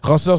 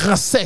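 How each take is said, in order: First: The word ends in an 'eur' sound. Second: The word ends in an 'et' sound. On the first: This is how people who speak Creole poorly say it. The speaker calls it wrong. "Ranceur, c'est pour les gens qui parlent pas bien le créole" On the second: This is how people say it on the street. The speaker calls it right. "Rancet, c'est comme ça qu'on parle dehors là"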